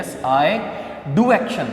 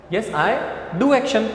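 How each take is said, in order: First: Emphatic "do" in a teaching demo; stress on do. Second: Sharp emphatic "do" for the class; stress on do. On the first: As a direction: lean hard on "do". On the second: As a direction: punch the word "do". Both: Shown as a demonstration. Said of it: "और emphasise करके बताना हो".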